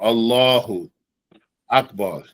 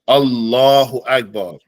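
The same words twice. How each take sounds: First: There is a pause between the two words. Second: The two words run together without a pause. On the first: The speaker calls it wrong. "you don't say Allah Akbar or Allahu Akbar. No, no pause in between that" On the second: The speaker calls it right. "They go together"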